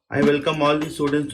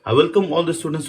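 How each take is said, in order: First: It is read in a flat monotone. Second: It is said with lively, varied pitch. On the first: The speaker calls it wrong. "never ever go on the stage and just read in a monotone" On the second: The speaker calls it right. "You could start like"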